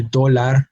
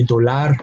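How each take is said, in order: First: Dólar with the weight up front, DÓ-lar; stress on first syllable. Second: Dólar mis-stressed on its final syllable, do-LAR; stress on last syllable. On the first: Teacher shows what we say, dólar stressed as DÓ-lar. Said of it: "on the second to last syllable". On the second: Teacher shows what not to say, dólar stressed as do-LAR. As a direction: say dólar as do-LAR, weight at the end. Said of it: "We do not say dólar". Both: Shown as a demonstration.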